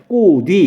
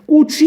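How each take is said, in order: First: The final consonant links as a d sound. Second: The final consonant links as a ch sound. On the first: The speaker calls it right. "꼬뒤 이런 식으로 발음을 해요" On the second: The speaker calls it wrong. "꼬취 이렇게 발음 안 하잖아요"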